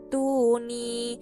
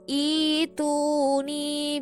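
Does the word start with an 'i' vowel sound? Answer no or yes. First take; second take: no; yes. First: The word joins the previous word, losing its initial vowel. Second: The word stands alone and begins with an 'i' vowel. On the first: The reading continues from the previous word without stopping. "Ketika dibaca terus maka bacanya i'tuni" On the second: The reading starts again at this word after a stop. "ketika memulai kembali di lafadz ini maka dia dibaca ituni"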